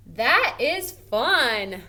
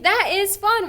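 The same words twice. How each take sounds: First: Slow, drawn-out reading of the sentence; slow read-aloud. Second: Much higher and louder, thrilled; excited statement. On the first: Teacher reading the worksheet sentence slowly to students. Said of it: "we're saying it kind of in an excited manner". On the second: Teacher showing how an exciting statement sounds. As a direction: say it with real excitement. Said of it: "saying it kind of in an excited manner". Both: Shown as a demonstration.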